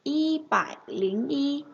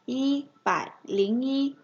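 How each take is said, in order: First: Y bải lính y drawn out slowly; slow model reading. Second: Said in the usual way. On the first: Shown as a demonstration. Teacher modeling y bải lính y slowly for students. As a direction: spell it out slowly for learners. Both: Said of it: "sẽ đọc là".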